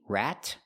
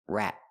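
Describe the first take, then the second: First: The final T is fully released. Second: The final T is stopped, not released. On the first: "You can make a T" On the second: "or a stop T"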